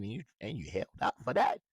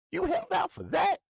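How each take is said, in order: First: Said in the usual way. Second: High squeaky disbelieving rise, louder; mock shock at the holdout, voice jumping way up; incredulous. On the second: Real, not acted. Ranting at the player about his holdout, incredulous high-pitched squeak.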